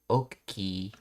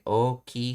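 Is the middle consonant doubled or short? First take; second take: doubled; short. First: The middle consonant is doubled and held. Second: The middle consonant is short and plain. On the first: "she's saying oki" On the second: "instead of saying oki"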